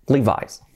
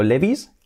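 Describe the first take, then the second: First: Levi's as "LEE-vise"; English "li-VAIS" for Levi's; English pronunciation. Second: Said in the usual way. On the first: Shown as a demonstration. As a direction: say Levi's with a final "eye" sound. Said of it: "Sería así". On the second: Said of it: "Escrito Levi's".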